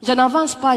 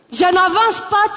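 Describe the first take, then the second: First: Said in the usual way. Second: Defiant Ivorian. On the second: Retold or imitated. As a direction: throw back "Je n'avance pas" with "pas" punched up. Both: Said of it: "elles ont du tempérament".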